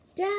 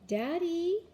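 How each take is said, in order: First: It is yelled as loud as possible. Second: It is said a little louder.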